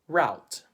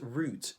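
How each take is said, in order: First: The word is said with a Filipino accent. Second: The word is said with a British accent. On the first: "In the Philippines, we would say" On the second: "But in the U K, they would say"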